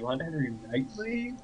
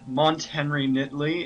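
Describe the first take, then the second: First: The surname begins with a long 'night' sound. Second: The surname begins with a short 'knit' sound. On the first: The speaker calls it wrong. "every single other person who's tried to say it, they always say" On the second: The speaker calls it right. "It's knit"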